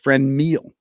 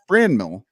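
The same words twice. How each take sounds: First: The stress is on the second syllable. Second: The stress is on the first syllable. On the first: The speaker calls it right. "It's it's Franmil, according to Baseball Reference" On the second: The speaker calls it wrong. "not Franmil, which is how I've been saying it"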